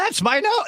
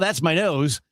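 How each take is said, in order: First: It is said big with lots of energy. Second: It is said flatly with little energy. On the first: The speaker calls it right. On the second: The speaker calls it wrong.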